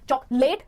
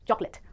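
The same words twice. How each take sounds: First: The last syllable sounds like 'late'. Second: The last syllable sounds like 'lit'. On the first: The speaker calls it wrong. "नहीं" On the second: The speaker calls it right. "it कहेंगे"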